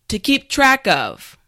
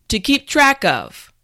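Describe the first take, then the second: No difference in how they are said.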